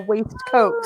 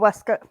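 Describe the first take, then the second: First: The word is said fully, as spelled. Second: The word is reduced, like 'weskit'. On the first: This is how it is said in order to spell it. "I have to say waistcoat" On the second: This is how it is actually said aloud. "it's really a Westcott"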